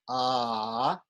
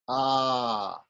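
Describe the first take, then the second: First: The vowel is held for a longer time. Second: The vowel is held for the longest time. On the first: "If it's longer" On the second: "and if it's even longer"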